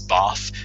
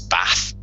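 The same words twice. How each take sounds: First: It is said in a non-northern English accent. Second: It is said in a northern English accent. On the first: "from where I'm from in England, it's Bath" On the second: "from the north, it's in the north, it's Bath"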